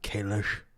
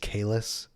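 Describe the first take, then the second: First: The name ends with an sh sound. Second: The name ends with a plain s sound. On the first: The speaker calls it wrong. "not Kalish" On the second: The speaker calls it right. "it's Kalis"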